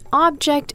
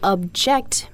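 First: The stress is on the first syllable. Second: The stress is on the second syllable. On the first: It names a thing. "an object is a thing" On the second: It means to say no. "to object means to say no"

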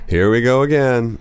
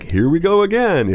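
First: The voice sounds annoyed and unhappy. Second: The voice sounds cheerful and happy. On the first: The speaker calls it right. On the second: The speaker calls it wrong. "it's not happy, like"

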